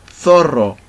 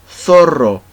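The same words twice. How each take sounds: The two takes are said the same way.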